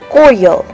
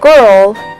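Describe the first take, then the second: First: It has a New York-like New Orleans pronunciation. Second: It has a standard pronunciation.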